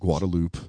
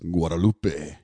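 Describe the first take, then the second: First: The name is said with an English pronunciation. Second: The name is said with a Spanish pronunciation. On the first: This is how locals in Austin say it. The speaker calls it wrong. "for all you Austinites" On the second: This is how people in South Texas say it. The speaker calls it right. "for all you people from South Texas and anywhere else"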